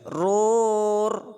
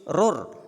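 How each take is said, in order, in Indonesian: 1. Vokalnya dipanjangkan terlalu lama. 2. Vokalnya dibaca pendek. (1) "tidak boleh rur" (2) "tapi rur"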